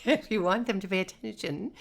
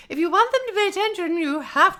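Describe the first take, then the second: First: Said in the usual way. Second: Much higher, fast, sing-song preschool-teacher lilt; musical teacher voice. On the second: Shown as a demonstration. Preschool teacher getting four-year-olds to listen, sing-song. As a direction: talk like you're grabbing four-year-olds' attention. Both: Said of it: "very musical in your speech".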